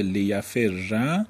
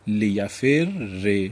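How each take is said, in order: First: «لیفر» said li-ya-fer-ra, doubled r then "a"; fatha ending. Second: «لیفر ر» said slowly as li-ya-fer-re; kasra ending. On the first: Teacher giving the lighter form, «لیفر» ending in -rra. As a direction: end «لیفر» on a clear "a". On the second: Teacher giving the original form, «لیفر ر» ending in -rre. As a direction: end «لیفر ر» on "e" after a doubled r. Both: Shown as a demonstration.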